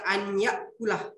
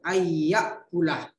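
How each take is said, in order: First: The n is pronounced separately before the y. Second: The n merges into a nasalized doubled y. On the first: The speaker calls it wrong. "Tidak dibaca" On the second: The speaker calls it right. "tapi dibaca"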